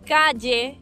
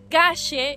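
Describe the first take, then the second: First: The ll sounds like an English y. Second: The ll sounds like an English sh. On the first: "como si fuese ye" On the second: "como si fuese C H en tu caso y S H en el nuestro"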